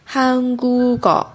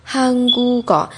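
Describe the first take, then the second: First: The k sound moves onto the last syllable. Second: The same.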